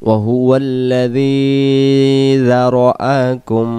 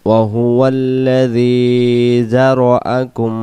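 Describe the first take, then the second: The two takes are said the same way.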